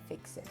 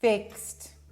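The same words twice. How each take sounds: First: The word ends with an added vowel sound. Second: The word ends cleanly on a t sound. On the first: The speaker calls it wrong. "Try to say ixt instead of ixy" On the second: The speaker calls it right. "let's try me saying it correctly"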